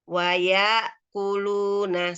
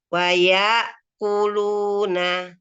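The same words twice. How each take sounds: The two takes are said the same way.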